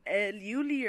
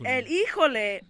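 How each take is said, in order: First: The name is said as two syllables, 'Yuli'. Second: The name is said as three syllables, 'Híjole'. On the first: The speaker calls it wrong. "I was gonna say or saying" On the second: The speaker calls it right. "But it's El Híjole"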